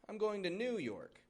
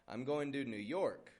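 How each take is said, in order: First: The stress falls on New. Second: The stress falls on York. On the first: The speaker calls it wrong. "No, no" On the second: The speaker calls it right. "Stressing the York"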